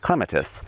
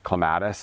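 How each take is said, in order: First: The word is said in a British way. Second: The word is said in an American way.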